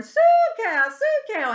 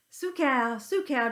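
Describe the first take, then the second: First: Far higher, much louder holler across the field. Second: Gentle coaxing call to the cows; a farmer sweet-talking his herd. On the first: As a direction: call the cows from a distant hill. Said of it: "start hollering". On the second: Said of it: "just talking real sweet and gentle". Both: Retold or imitated.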